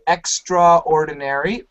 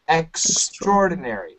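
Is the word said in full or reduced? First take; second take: in full; reduced. First: The word is said carefully, with every syllable pronounced in full. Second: The word is said quickly, with syllables run together and reduced. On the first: "A lot of students want to say extraordinary, which is fine" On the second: "when we say it fast, we say extraordinary"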